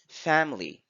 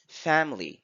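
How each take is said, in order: First: The unstressed vowels are reduced and weak. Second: The same.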